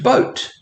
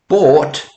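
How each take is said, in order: First: The vowel sounds like oh in boat. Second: The vowel sounds like aw in bought. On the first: This is the modern pronunciation. "to boat" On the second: This is the older pronunciation. "This went from bought"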